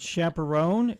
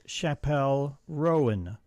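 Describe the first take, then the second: First: The second syllable is not stressed. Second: The stress is on the second syllable. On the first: The speaker calls it wrong. "So it's not chaperone" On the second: The speaker calls it right. "We're emphasizing pellets"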